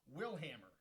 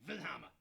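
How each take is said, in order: First: The name begins with an English W sound. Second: The name begins with a German V sound.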